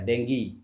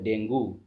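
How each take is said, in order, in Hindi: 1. शब्द 'ee' ध्वनि पर खत्म होता है। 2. शब्द 'oo' ध्वनि पर खत्म होता है। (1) "सही प्रोनाउंसिएशन डेंगी होता है" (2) "but this is wrong pronunciation"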